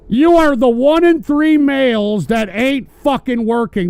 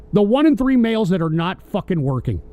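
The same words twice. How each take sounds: First: Pointed and louder, jabbing at the chatter; louder accusation. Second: Said in the usual way. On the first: Real, not acted. Host scolding jobless chatters, raised voice. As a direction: hammer the line home at the viewer. Rant repeated with more force.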